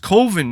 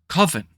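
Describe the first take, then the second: First: The first vowel sounds like the one in 'go'. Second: The first vowel sounds like the one in 'oven'. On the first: The speaker calls it right. "it's pronounced Coven, man" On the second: The speaker calls it wrong. "Coven sounds like oven"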